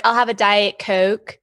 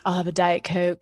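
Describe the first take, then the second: First: Light Mid-Atlantic accent with long O's in "Coke"; mild Maryland accent, long O's; Jersey Philly Maryland accent. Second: Same accent, voice dropped lower; Mid-Atlantic long O's, lowered voice. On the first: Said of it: "the long O's". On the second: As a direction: take it down, Holmes-like. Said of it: "take it down a couple octaves". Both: Shown as a demonstration.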